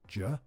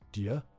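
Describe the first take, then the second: First: The two words shrink to one very clipped syllable. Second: The two words blur into one short syllable. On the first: "or even ja" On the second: "becomes dir"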